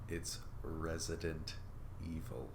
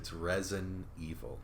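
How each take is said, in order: First: Every syllable of Resident is clearly pronounced. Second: Resident is squeezed down to Resin. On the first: "you have to say it specifically like that" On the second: "I hear it every time someone mentions it on a podcast"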